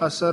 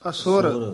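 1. s ਤੋਂ ਬਾਅਦ ਕੋਈ ਸਵਰ ਨਹੀਂ ਹੈ। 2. s ਤੋਂ ਬਾਅਦ ਛੋਟੀ 'ੁ' ਮਾਤਰਾ ਆਉਂਦੀ ਹੈ।

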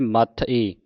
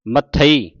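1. ਸ਼ਬਦ ਦੋ ਹਿੱਸਿਆਂ ਵਿੱਚ ਤੋੜਿਆ ਜਾਂਦਾ ਹੈ। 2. ਸ਼ਬਦ ਇੱਕ ਇਕਾਈ ਵਜੋਂ ਬੋਲਿਆ ਜਾਂਦਾ ਹੈ। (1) "ਮੱਥ ਈ ਨਹੀਂ ਪੜ੍ਹਨਾ" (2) "ਮੱਥਈ ਇਸ ਤਰ੍ਹਾਂ ਪੜ੍ਹਨਾ ਹੈ"

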